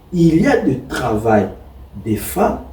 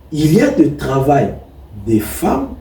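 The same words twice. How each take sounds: The two takes are said the same way.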